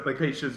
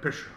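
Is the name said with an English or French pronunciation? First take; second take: English; French. First: The name is said with a plain English pronunciation. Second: The name is said French-style, trailing off halfway.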